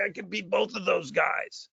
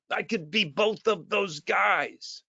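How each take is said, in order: First: Said in the usual way. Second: "I could be both of those guys" very slow, each word weighted; slow emphatic repeat. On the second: Shown as a demonstration. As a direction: drive it home word by word. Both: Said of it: "repeated slowly for emphasis".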